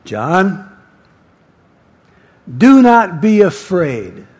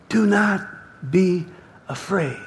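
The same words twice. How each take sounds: First: Big commanding divine voice; Jesus. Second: Gentle divine reassurance, word by word; long pauses between words, softening to the end; Jesus. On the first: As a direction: call the name, pause, then declare it loudly. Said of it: "It's a big voice". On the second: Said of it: "That's Jesus' voice". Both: Acted.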